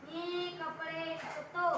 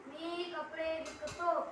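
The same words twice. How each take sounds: No difference in how they are said.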